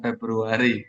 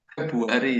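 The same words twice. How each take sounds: First: The word is said with an R sound. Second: The word is said without an R sound. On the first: This is the standard form. "bukan Februari" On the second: This is how older village people say it. "Nggak ada R-nya, R-nya itu hilang"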